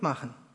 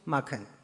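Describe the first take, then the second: First: The middle consonant is pronounced ch. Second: The middle consonant is pronounced k. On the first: "In den oberdeutschen Dialekten haben wir nur verschobene Formen" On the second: "Im Niederdeutschen wurde nicht verschoben"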